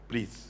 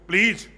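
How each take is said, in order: First: It is said in a soft tone. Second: It is said in an angry tone.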